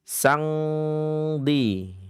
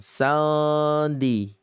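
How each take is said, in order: First: The nasal is an ng from the back. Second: The nasal is made too wide and open. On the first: "Atau ikhfa ab'ad" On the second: "Atau mungkin terlalu lebar"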